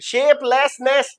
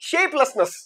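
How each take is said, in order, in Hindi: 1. बीच के अक्षर में पूरा 'less' स्वर है। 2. बीच के अक्षर में घटा हुआ श्वा स्वर है। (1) "शेपलेसनेस नहीं" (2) "लेसनेस को कर दिया लसनेस"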